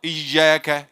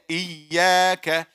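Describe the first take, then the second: First: The middle consonant sounds like a j. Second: The middle consonant sounds like a y. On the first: The speaker calls it wrong. "that's too much jim" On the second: The speaker calls it right. "it has to be pure"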